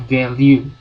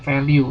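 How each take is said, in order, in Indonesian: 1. Kata ini dimulai dengan bunyi v. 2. Kata ini dimulai dengan bunyi f. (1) "itu bacanya value ya" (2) "bukan value ya. Kalau Anda bilangnya value salah"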